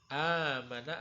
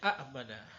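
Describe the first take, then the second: First: The first vowel is long, with no glottal stop. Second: The first vowel is short, then a glottal stop. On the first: This is how the word is actually read. "hamzah yang kedua diganti dengan bacaan panjang atau bacaan mad" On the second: This is the original underlying form.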